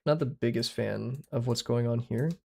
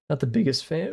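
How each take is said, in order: First: Said in the usual way. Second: Cracked, breaking voice. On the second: Real, not acted. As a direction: voice cracking on biggest. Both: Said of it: "Ooh, voice crack".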